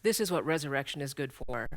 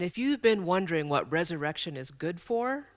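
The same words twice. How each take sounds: First: "this is what resurrection is good for" lower, with a falling end; firm answer. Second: Rising tune through to "good for"; posed question. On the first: Church speaker answering the question just posed about Easter, falling on "good for". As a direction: answer it, settling down onto "good for". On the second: Church speaker setting up a question about Easter, rising on "good for". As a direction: pose "what resurrection is good for" with a lifted, open ending. Rhetorical question before its answer. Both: Real, not acted.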